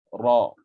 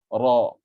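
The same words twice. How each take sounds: No difference in how they are said.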